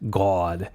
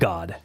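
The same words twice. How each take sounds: First: The vowel is a rounder aw sound. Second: The vowel is an open unrounded ah sound. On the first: "a lot more aw sound" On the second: "In sort of a basic American accent"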